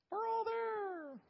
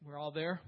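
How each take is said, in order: First: Drawn out, much higher, almost sung; sung, stretch it slowly as a playful little tune; sung, sing-song answer. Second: Checking question with a rising end; asking. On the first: Preacher answers his own question to the class, sung high and slow. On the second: Preacher checks the class has found the verse, rising question. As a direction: ask if everyone is on the page. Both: Shown as a demonstration.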